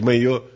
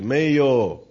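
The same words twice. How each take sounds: First: The final vowel is cut short. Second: The final vowel is drawn out long. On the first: It tells someone to go away. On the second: It means no.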